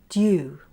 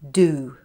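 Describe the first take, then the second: First: A y sound comes before the oo. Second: No y sound comes before the oo. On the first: "You after some consonants in the following words" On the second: "In American English, the y sound is omitted in these words like this"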